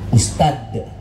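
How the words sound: The final consonant is a d sound. "orang Sunda bilang ustad jadi ustad"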